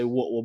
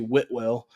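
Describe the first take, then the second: First: It is said the way locals pronounce it. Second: It is said fully, as it is spelled. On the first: This is how people from the town say it. "if you're from there, they say Whitwell" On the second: This is the name as it is written. "but it's actually Whitwell"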